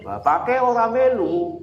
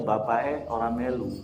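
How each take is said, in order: First: Higher and slower, standard Indonesian; "Bapake orang melu" said slowly and higher, plain Indonesian; the Indonesian rendering, drawn out. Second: Javanese-flavoured Indonesian; a light Solo Javanese accent. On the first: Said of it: "Tapi kalau dalam bahasa Indonesia". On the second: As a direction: say it the Solo Javanese way, lilting and soft. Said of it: "Kan kalau dalam bahasa Jawa Solonya". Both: Shown as a demonstration.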